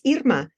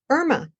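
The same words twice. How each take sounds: First: The name is said with Spanish-style vowels. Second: The name is said with English-style vowels. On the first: This is how the name's owner says it. "which is the pronunciation not just in Spanish, it's French, Italian, Russian" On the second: This is how readers of the written name usually say it. "they often say Irma. And that is one pronunciation of this name"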